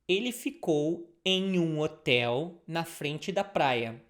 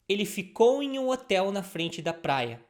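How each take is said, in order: First: The sentence is said slowly. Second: The sentence is said fast.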